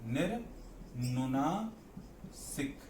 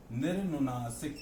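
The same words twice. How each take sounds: First: निर्नुनासिक stretched very slowly, syllable by syllable; slow drawn-out term. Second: Said in the usual way. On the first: Shown as a demonstration. Teacher spelling out a new term for students, very slow. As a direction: draw out निर्नुनासिक, softer and slower. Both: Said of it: "होता है निर्नुनासिक".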